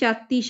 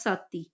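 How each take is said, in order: First: The word begins with an aspirated 'ch' sound. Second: The word begins with a plain 's' sound. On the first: This is the standard form of the word. "ਛਾਤੀ ਸ਼ਬਦ ਹੈ" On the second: This is how the Malwai dialect says the word. "Malwai ਉਪਭਾਸ਼ਾ ਲਈ use ਕਰਦੇ ਆ ਸਾਤੀ"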